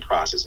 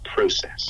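First: The first syllable has an American-style vowel. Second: The first syllable has a British-style vowel. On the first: This is not how the London drama school says it. The speaker calls it wrong. "They don't say process" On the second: This is how the London drama school says it. The speaker calls it right. "it's process. Pro, emphasis on pro"

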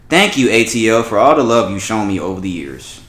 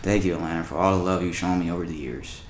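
First: It is read in a normal, lively way. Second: It is read in a dull, flat way.

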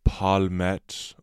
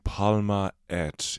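First: The vowels merge, running the two words together. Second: The two words are kept separate, both vowels said. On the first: "into palmet" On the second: "turn palma et into"

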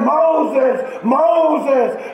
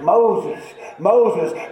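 First: It is called out urgently, as a warning. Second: It is said plainly, like ordinary reading.

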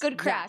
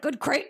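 First: The vowel sounds like in 'back'. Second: The vowel sounds like in 'make'. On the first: The speaker calls it right. "It's the crack" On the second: The speaker calls it wrong. "You're pronouncing it fucking wrong"

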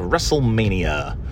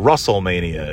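First: The first part sounds like 'wrestle'. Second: The first part sounds like 'Russell'.

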